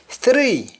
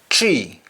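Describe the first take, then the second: First: The word starts with a th sound. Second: The word starts with a t sound. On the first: "Under English" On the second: "instead of th, they use t or d"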